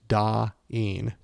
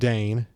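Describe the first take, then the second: First: Two vowels are heard, 'ah' then 'ee'. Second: The vowel sounds like 'ay' in day. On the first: The speaker calls it right. "It's Da-een, two vowels" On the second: The speaker calls it wrong. "it's not Dane"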